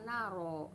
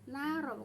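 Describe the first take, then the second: First: The r is heavy and thick. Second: The r is light and thin. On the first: The speaker calls it wrong. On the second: The speaker calls it right.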